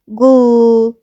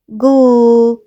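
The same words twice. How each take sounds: First: A short vowel separates the g and l. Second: The g runs straight into the l. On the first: The speaker calls it wrong. "ما أقولش جل" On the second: The speaker calls it right. "لأ جل"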